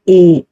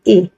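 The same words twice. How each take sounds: First: The vowel is long and full. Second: The vowel is short and clipped. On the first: "पूरा बड़ी ए की आवाज होती है ए" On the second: "हम इसकी आवाज निकालते हैं ए ... निकालनी हमने छोटी आवाज है"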